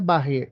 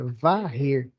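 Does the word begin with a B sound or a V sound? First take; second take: B sound; V sound. First: The word begins with a B sound. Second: The word begins with a V sound. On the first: The speaker calls it wrong. "não é barrer" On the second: The speaker calls it right. "é varrer"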